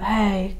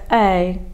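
First: The vowel starts with air leaking through. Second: The vowel starts with a light, brief click. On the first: The speaker calls it wrong. "without that, you will get a A kind of sound, just air coming through" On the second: The speaker calls it right. "you would be looking to normalise it to A"

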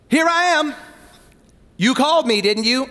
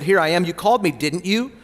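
First: It is said in a sarcastic tone. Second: It is said in a plain, neutral tone.

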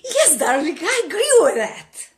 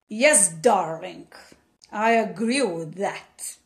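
First: It sounds eager and wholeheartedly agreeing. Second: It sounds reluctant and insincere.

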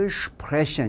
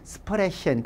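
First: It begins with a German 'shp' sound. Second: It begins with a plain 'sp' sound. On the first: The speaker calls it right. "이렇게 발음을 독일 스타일로 했지" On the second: The speaker calls it wrong. "그러면은 독일 사람들도 못 알아듣는다는"

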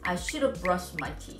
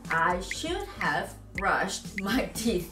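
First: "Should have" is reduced and run together. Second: Each word of "should have" is said fully. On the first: The speaker calls it right. "그럼 어떻게 하느냐? 내가 읽어볼게" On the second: The speaker calls it wrong. "아무도 이거를 I should have brushed my teeth 이런 사람 없어"

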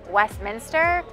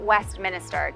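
First: It is said without an extra middle syllable. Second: It is said with an extra 'i' syllable. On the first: The speaker calls it right. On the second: The speaker calls it wrong.

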